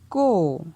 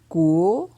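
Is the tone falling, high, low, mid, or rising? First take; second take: falling; rising. First: The syllable has a falling tone. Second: The syllable has a rising tone. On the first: "Ton descendant" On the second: "Ton montant"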